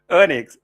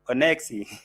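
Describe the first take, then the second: First: It is said in the speaker's plain accent. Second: It is said in an imitated foreign accent.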